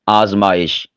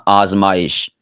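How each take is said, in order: Both takes have the same delivery.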